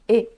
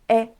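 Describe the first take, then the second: First: The vowel is closed, like Portuguese ê. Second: The vowel is open, like Portuguese é. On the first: This is how it sounds in Japanese. The speaker calls it right. "no japonês a pronúncia ela é um pouco mais fechada" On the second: This is how it sounds in Portuguese. The speaker calls it wrong. "no português normalmente a gente fala é, como se tivesse um acento"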